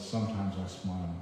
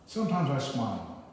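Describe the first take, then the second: First: Said in the usual way. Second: First line of the poem, louder, falling on "Sometimes"; poem reading. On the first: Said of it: "And then this one is". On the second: Acted. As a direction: open the poem, leaning on "Sometimes". Reads the poem title line.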